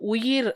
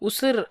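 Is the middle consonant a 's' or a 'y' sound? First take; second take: y; s. First: The middle consonant is a 'y' sound. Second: The middle consonant is an 's' sound. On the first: The speaker calls it right. "கரெக்டானது" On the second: The speaker calls it wrong. "நம்ம பேசும்போது உசிர் அப்படின்னு சொல்லி பேசுவோம்"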